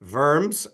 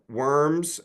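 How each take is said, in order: First: It is said with a German pronunciation. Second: It is said with an American English pronunciation. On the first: "as they might say it in Germany" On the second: "as we Americans would say it"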